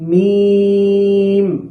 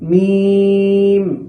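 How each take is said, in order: No difference in how they are said.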